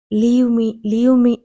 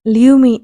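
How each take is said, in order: First: Loud, rising cry to be let go; shouting. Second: Even louder shout. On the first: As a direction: yell at him to let go. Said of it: "అని అరుస్తోంది". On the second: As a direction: scream it at him with everything. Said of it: "ఇంకా గట్టిగా అరుస్తూ". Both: A narrator's reading.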